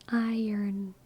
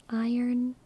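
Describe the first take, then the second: The two takes are said the same way.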